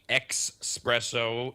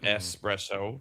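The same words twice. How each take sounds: First: The first syllable has an X sound. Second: The first syllable has no X sound. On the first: The speaker calls it wrong. "very annoying would be the espresso ... there's no X in that word" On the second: The speaker calls it right. "instead of"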